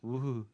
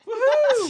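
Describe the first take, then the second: First: It sounds flat and unenthusiastic. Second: It sounds excited and energetic.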